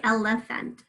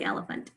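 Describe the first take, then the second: First: Elephant said "el-eh-fent", middle a short E; without schwa. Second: Elephant said "el-uh-funt"; with schwa. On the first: Teacher shows how some people say it, without schwa. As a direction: give elephant a clear eh in the middle. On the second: Teacher shows how she says it, with schwa. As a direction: reduce the middle of elephant to uh. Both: Shown as a demonstration. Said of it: "I say it with the schwa".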